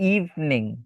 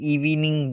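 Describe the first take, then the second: First: The v runs straight into the n. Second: A vowel is sounded between the v and n. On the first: The speaker calls it right. "উচ্চারণের সময় এই ইটা উচ্চারণ করা হবে না" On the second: The speaker calls it wrong. "আমরা এটাকে ইভেনিং বলি অথবা ইভিনিং বলি"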